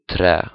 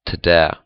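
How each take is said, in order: First: Trä with a quick tongue-tap R; one light tap for the R in trä; tapped R. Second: Träd said as "tuh-dä". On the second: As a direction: clear D after the T in träd. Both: Shown as a demonstration. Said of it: "be able to turn the".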